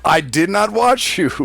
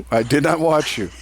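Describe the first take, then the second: First: Indignant denial. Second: Said through a laugh; laughing denial. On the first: Defending himself against a teasing accusation. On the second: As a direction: deny it while cracking up. Repeats the denial while laughing. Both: Real, not acted.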